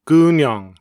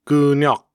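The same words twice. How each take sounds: First: "Gunyong" ending in a nasal ng; standard Korean word. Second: "gunyok" cut off by a final k; Gyeonggi dialect word. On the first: Narrator reading the standard word first, citation style. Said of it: "I will read the standard Korean word". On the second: Narrator reading the Gyeonggi word second, citation style. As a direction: end "gunyok" on a stopped k. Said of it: "then the word with the Gyeonggi dialect". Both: Shown as a demonstration.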